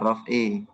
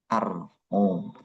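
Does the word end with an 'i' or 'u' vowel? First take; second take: i; u. First: The word ends with an 'i' vowel. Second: The word ends with a 'u' vowel. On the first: The word is read as belonging to the preceding phrase. The speaker calls it wrong. "Bukan min dzalika ar-raf'i" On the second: The word is read as the subject of the sentence. The speaker calls it right. "Maka dibacanya ar-raf'u"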